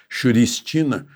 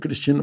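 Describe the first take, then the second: First: The name begins with an sh sound. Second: The name begins with a k sound. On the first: "porque é CH também, não sei se não é Xuristina" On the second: "não sei se pronuncia Cristina"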